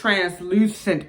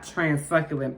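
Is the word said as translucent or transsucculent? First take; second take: translucent; transsucculent. First: The word is said as trans-lu-cent. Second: The word is said as trans-suc-cu-lent. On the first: The speaker calls it right. "It's translucent powder" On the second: The speaker calls it wrong. "I've been saying it wrong"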